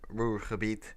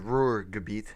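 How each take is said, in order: First: The name is said with a Dutch or German pronunciation. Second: The name is said with an English-style pronunciation.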